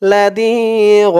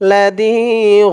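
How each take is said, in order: No difference in how they are said.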